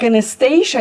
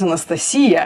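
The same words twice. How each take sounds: First: The stress is not on the suffix. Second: The stress is on the suffix. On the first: This is the English pronunciation. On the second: This is the Russian pronunciation.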